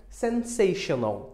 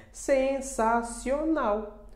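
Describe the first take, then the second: First: Slow "Sensational" as sen-SAY-shu-nul; English pronunciation. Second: Very slow, higher "Sensacional", sen-sa-si-o-NAU; Portuguese pronunciation. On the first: Teacher modelling the English counterpart, slow English pronunciation. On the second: Teacher revealing what it reminds you of, slow syllabified Portuguese. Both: Shown as a demonstration. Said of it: "O que é que te lembra".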